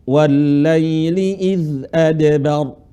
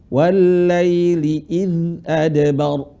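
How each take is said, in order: The two takes are said the same way.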